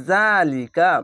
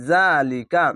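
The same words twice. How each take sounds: The two takes are said the same way.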